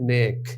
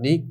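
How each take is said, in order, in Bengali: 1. স্বরধ্বনিটি একটি মধ্য 'ay' ধ্বনি। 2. স্বরধ্বনিটি একটি উচ্চ 'ee' ধ্বনি। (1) "কথাটা হচ্ছে নেক" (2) "না নিক না"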